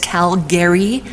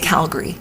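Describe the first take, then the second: First: The ending is said fully, like 'gary'. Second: The ending is reduced, not like 'gary'. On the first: It follows the spelling, as outsiders say it. The speaker calls it wrong. "spelled at the end G A R Y, but nobody says Calgary" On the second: It is how locals say it. The speaker calls it right. "We say Calgary"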